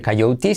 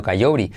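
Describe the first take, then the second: First: Coyote as "kai-OU-ti" with a clear t; hard T version. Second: Coyote as "kai-O-ri", tapped r; soft R version. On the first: Teacher showing what not to say, coyote as "kai-OU-ti". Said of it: "no se dice coyote". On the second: Teacher correcting learners, coyote as "kai-OU-ri". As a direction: say coyote with the t softened to r, low. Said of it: "sino coyote". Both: Shown as a demonstration.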